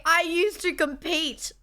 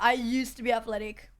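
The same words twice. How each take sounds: First: "compete" slow and insistent; slow, firm "I used to compete"; emphatic. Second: Said in the usual way. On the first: Shown as a demonstration. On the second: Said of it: "Let me just tell you that".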